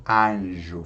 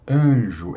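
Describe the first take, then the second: First: "anjo" said with an open, un-nasal A. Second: Said in the usual way. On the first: Shown as a demonstration. Teacher showing how Portuguese speakers don't say it, "anjo" with open A. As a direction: say "anjo" with a clear open first A. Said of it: "não fa-, não falamos anjo". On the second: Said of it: "falamos anjo".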